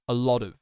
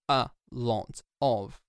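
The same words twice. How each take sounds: First: The words are crushed together and reduced. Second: Each word is pronounced fully and separately. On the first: The speaker calls it right. "The pronunciation gets crushed down. It gets reduced" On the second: The speaker calls it wrong. "We don't say a lot of"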